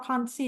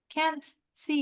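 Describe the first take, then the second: First: Can't is said with a British vowel. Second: Can't is said with an American vowel.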